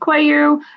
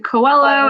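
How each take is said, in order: First: The name is said with a Portuguese pronunciation. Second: The name is said with an American pronunciation. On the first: Portuguese people say it this way. "a lot of Portuguese people will call me Cuello" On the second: Americans say it this way. "then you have the Americans that will say Coelho"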